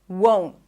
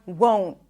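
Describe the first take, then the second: No difference in how they are said.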